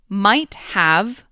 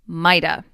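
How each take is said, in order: First: The word 'have' is said in full. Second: The word 'have' shrinks to a schwa sound. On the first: "Might have becomes" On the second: "becomes mighta"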